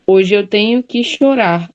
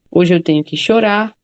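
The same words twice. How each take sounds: First: Slow, measured reading with chorar drawn out at the end; slow verse reading. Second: Said in the usual way. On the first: Shown as a demonstration. Teacher reading a poem line to class, slow and measured. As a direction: read the line slowly and let chorar fall. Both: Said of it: "e chorar lembra embora".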